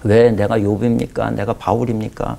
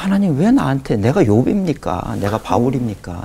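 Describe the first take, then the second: First: Slow, mildly reproachful questions to God; a touch of sulky complaint, drawn out; grumbling complaint. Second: Pastor's retold prayer complaint about his illness, a pleading lament; anguished complaint to God. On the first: Retold or imitated. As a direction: pastor alone in the prayer room grumbling at God, mildly reproachful. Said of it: "말도 안 되는 소리를 막 늘어놓기를". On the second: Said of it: "이걸 안 없애주시니 그게 뭐 너무 괴로운 거예요".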